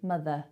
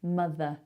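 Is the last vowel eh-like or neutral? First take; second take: eh-like; eh-like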